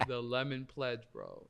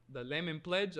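First: "The Lemon Pledge" as a falling statement, "bro" dropped low; retold deadpan confirmation. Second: "The Lemon Pledge" as a puzzled question; retold disbelieving question. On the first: Confirms the absurd reason. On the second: Worker questions the absurd reason.

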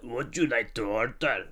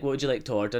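First: Mocking the accent. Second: Said in the usual way. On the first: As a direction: parrot the question back mockingly. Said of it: "they just keep mocking your accent". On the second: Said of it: "I'll be like".

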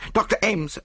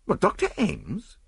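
First: High-pitched alarmed call for the doctor; frantic summons; urgent cry. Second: High, slow, rising disbelief; dumbfounded cry; stupefied. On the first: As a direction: call out in sudden panic. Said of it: "I cried". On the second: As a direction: question it in utter astonishment. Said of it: "I cried, stupefied". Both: A narrator's reading.

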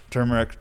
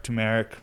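First: "Turmeric" with an R in the first syllable; pronounced TUR-meric. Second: "turmeric" without the first R, TOO-mer-ic; pronounced TOO-meric. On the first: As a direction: say "Turmeric" as TUR-mer-ic, R sounded. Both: Shown as a demonstration. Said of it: "I don't know how you say it".

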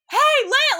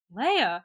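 First: High, loud call for attention; urgent call. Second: Said in the usual way. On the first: Retold or imitated. Han about to be set on fire spots Leia, urgent call. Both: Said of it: "wouldn't there be a little more urgency?".

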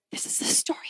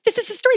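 First: Hushed breathless whisper, leaning in; a child whispering in awe; awed whisper. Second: Higher, eager burst after the whisper; a kid thrilled to recognize the story; excited realization. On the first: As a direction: whisper it like a secret you just recognized. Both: Retold or imitated. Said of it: "on the edge of my seat going".

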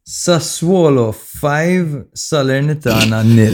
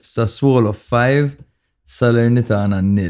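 First: Sassuolo drawn out slowly and high, nil landing flat; dramatic score announcement. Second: Five stretched slowly, Salernitana falling; slow solemn read of five and nil; dramatic score announcement. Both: Shown as a demonstration. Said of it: "This is a statement in itself".

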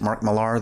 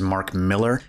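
First: Millar said as "muh-LAR"; Mah-LAR pronunciation. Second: Millar said like "Miller"; Miller pronunciation. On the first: Shown as a demonstration. Host gives the pronunciation they always use, Millar as muh-LAR. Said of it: "I've always pronounced it". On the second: Retold or imitated. Host quotes how people online say the name, Millar as "Miller". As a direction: say Millar as MILL-er, first syllable stressed. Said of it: "pronouncing his last name as".

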